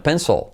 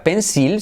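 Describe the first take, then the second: First: Pencil as "penso", L swallowed; dark final L. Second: Pencil with a clear "seel" ending; Spanish-read pencil. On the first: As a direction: say pencil with no clear vowel before the L. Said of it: "sino pencil". (pencil como "penso", ele atrás) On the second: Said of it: "no se diría pencil". (pencil como "pensil", a la española) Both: Shown as a demonstration.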